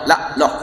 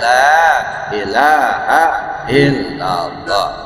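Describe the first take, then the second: First: The phrase is clipped to two short syllables. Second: Every syllable is said, with a long la. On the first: The speaker calls it wrong. "Tidak boleh juga dikurangin" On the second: The speaker calls it right. "la ilahnya panjang"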